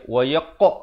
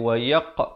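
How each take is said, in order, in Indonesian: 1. Pantulan q di akhir memang dipaksakan dengan sengaja. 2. Pantulan q di akhir keluar secara alami. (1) "Kalau buat bunyi wayaq, itu tak betul" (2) "kita lepaskan dia bunyi qa itu sendiri"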